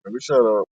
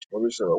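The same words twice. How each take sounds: First: Low, soft mutter "let me shut up". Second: "Let me shut up" almost inaudible, far lower; fading mutter. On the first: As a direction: trail off to yourself. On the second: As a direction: fade out to nothing. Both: Real, not acted.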